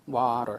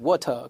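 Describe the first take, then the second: First: It is said in an American accent. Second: It is said in a British accent. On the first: "미국 애들은 water" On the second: "물론 영국 애들은 water, 그럽니다만은"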